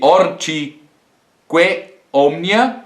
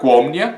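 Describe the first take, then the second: First: Both vowels are said separately. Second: The first vowel is cut and words join. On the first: "vocês têm ali" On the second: "que vai ficar"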